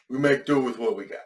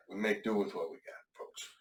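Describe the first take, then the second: First: Said in the usual way. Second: Softer, mumbled repeat; quieter, trailing off. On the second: Real, not acted. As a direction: mutter it, fading away. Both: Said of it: "can't hear me through the mask".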